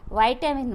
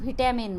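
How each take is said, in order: First: American pronunciation with an 'eye' first vowel. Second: British pronunciation with a short 'i' first vowel. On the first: "अमेरिकनमध्ये व्हायटॅमिन म्हणतात" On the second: "आपण व्हिटॅमिन म्हणतो"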